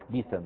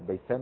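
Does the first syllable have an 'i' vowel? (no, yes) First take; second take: yes; no. First: The first syllable has an 'i' vowel. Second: The first syllable has no 'i' vowel.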